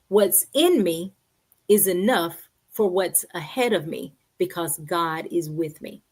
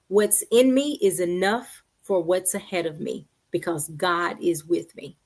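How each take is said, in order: First: It is said slowly and deliberately. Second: It is said at a normal pace.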